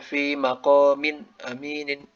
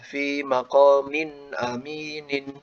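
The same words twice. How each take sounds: First: The nasal sounds are cut off abruptly. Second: The nasal sounds flow on smoothly. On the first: The speaker calls it wrong. "kalau kita pangkas malah jadi aneh" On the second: The speaker calls it right. "kalau kita alirkan memang malah itulah yang harus dilakukan"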